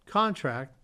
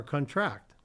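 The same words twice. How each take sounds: First: "contract" as CON-tract, first syllable punched; stress on first syllable. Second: "contract" as con-TRACT, second syllable stressed; stress on last syllable. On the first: Teacher showing viewers the noun, first-syllable stress on "contract". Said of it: "Stress on the first". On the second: Teacher showing viewers the verb, last-syllable stress on "contract". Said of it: "Stress on the last syllable". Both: Shown as a demonstration.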